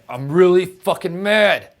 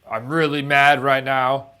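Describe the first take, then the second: First: It is said with amped-up, intense anger. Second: It is said with moderate, plain anger.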